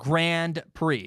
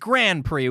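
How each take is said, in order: First: Grand ends with a clear D sound. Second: Grand is said with no D sound. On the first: "Grand Prix with a D sound" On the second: "with a no D sound"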